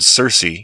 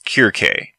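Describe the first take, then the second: First: The name begins with a soft S sound. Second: The name begins with a hard K sound. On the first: "like the word Circe, do not quite sound the same in Greek" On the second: "Her name in Greek sounds more like Kirke"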